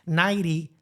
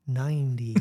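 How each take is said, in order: First: "ninety" the accented way, middle consonants blurred. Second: "ninety" with both n's and the t clearly sounded; careful, lower "ninety" with a full n before the t; coached "ninety". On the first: Reporter showing how they used to say it, accented "ninety". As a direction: say "ninety" with the first n-t softened, "naity". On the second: Reporter showing the coach's version, carefully pronounced "ninety". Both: Shown as a demonstration. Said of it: "teach me how to say from, instead of ninety".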